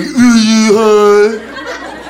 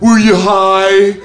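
First: Extremely drawn-out, higher mock echo; mocking comeback. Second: Long drawn-out, louder mock question. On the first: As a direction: parrot it back, stretched even further. His mocking comeback to friends. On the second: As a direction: stretch every word to tease him. Friends question him, drawn out.

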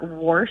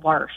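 First: "warsh" with an aw vowel, like worsh; rejected worsh variant. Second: "warsh" with an ah vowel before the R; mother's warsh. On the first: Shown as a demonstration. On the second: Retold or imitated. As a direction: say "warsh" to rhyme with marsh. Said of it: "I recall her as saying".

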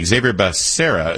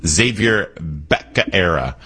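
First: Said in the usual way. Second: Slow "Xavier Becerra", surname botched as BECK-uh-AIR-uh; Joe Biden. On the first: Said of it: "I hear lots of different pronunciations". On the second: Retold or imitated. Host quoting a politician's botched name, "Becerra" as becka-era. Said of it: "I think Joe Biden called him".

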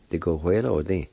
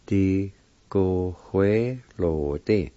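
First: Said in the usual way. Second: "Di, go, hue, lo, di" in separated syllables. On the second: Shown as a demonstration. Teacher repeating the word for pencil, syllable by syllable. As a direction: sound out each part deliberately. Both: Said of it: "It's pronounced like this".

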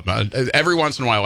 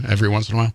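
First: Said in the usual way. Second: Lightly voiced oldies radio jock; a hint of a sixties radio host; sixties DJ mode. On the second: Shown as a demonstration. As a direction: drop into a vintage DJ voice for the tag line. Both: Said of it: "I slide into, like, nineteen sixties D J mode".

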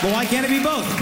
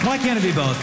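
First: "But why can't it be both?" pitched high, leaning on "both"; emphatic question. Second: Said in the usual way. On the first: Acted. Comic insisting on both to the host, high and emphatic. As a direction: push "both" up and out.

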